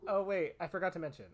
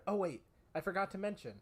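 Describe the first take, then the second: First: Dry sarcastic tone. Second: Sarcastic. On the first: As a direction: say it with heavy sarcasm. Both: Shown as a demonstration. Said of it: "I am saying this with a sarcastic inflection".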